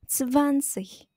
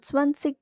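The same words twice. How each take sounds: First: The first sound is the German z. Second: The first sound is the Indonesian z. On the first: The speaker calls it right. "huruf Z dalam bahasa Jerman dibaca Z" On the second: The speaker calls it wrong. "tidak dibaca zwanzig ya"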